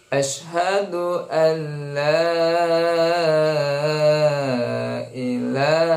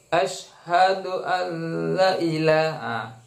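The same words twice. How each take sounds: First: The vowel in la is long. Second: The vowel in la is short. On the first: The speaker calls it right. "la di situ ya dibaca panjang" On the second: The speaker calls it wrong. "dari segi pendek-pendeknya"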